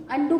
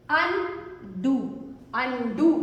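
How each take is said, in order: First: Said in the usual way. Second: undo drawn out slowly as अन, then डू; split syllables. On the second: Shown as a demonstration. Teacher breaking a word up for pupils, split syllables. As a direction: say "undo" in two separated beats.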